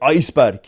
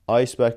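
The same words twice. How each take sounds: First: It is said harshly, in a German-style accent. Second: It is said in a plain English way.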